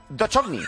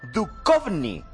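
First: The ch is not said as a K sound. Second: The ch is said as a hard K sound. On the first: The speaker calls it wrong. "Y no Duchovny" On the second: The speaker calls it right. "se pronuncia Duchovny ... la Che allí es K"

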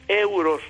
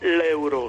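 First: The word starts directly with the vowel sound. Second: An L sound comes before the first vowel. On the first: The speaker calls it right. "es euro sin la L" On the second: The speaker calls it wrong. "No es euro con L delante de la E"

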